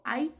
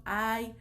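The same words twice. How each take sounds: First: A higher ay, like a small yelp of pain. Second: Said in the usual way. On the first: Shown as a demonstration. Teacher showing students an "ay" of pain, a higher yelp. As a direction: yelp "ay" as if something hurt. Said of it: "puede ser de dolor". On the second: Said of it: "las interjecciones son".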